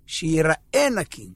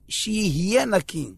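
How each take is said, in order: First: שיראה stretched out slowly for contrast; stress on שיראה. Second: שיהיה drawn out slowly for contrast; stress on שיהיה. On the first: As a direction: draw out שיראה to mark the difference. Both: Shown as a demonstration. Contrasts being clean with looking clean.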